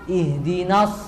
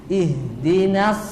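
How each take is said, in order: The two takes are said the same way.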